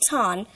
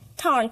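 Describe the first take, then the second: First: It is said with the r dropped. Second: It is said with a curled r. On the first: "we turn to drop it in British and speak it tan" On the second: "But in American, I'll pronounce tarn"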